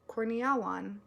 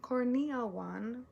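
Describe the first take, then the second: First: Said in the usual way. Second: Korneawan sounded out slowly, rising like a question; tentative slow try at Korneawan; careful name try. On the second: Shown as a demonstration. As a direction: feel your way through Korneawan. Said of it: "Kitchen Curse by Eka Korneawan".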